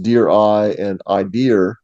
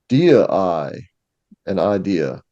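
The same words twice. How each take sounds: First: It has a Massachusetts accent, with r after idea. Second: It has Poe's accent, with no r after idea.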